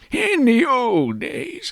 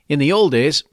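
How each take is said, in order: First: It is said in an old man's voice. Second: It is said in his normal voice.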